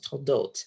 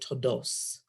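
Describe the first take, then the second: First: The word ends with a t sound. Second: The word ends with an s sound. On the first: "this week's parsha was toldot in Hebrew"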